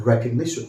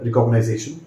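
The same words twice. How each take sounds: First: Recognition as REK-ug-NI-shun; correct pronunciation. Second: Recognition as re-cog-uh-nai-ZAY-shun; wrong pronunciation. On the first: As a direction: say recognition ending in a short "ni-shun". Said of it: "try to pronounce it as". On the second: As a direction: say recognition with "nize-ation" at the end. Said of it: "इस word को ऐसे मत बोलिए". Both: Shown as a demonstration.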